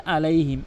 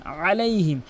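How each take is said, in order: First: আলাইহিম with plain hamza a; আলাইহিম, no throat squeeze at the start; common mispronunciation. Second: আলাইহিম opened with a throaty ain; correct ain. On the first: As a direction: say আলাইহিম lightly, without ain. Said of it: "অধিকাংশ লোক বলে". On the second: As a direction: squeeze the first sound of আলাইহিম in mid-throat. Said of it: "বলতে হবে আলাইহিম". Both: Shown as a demonstration.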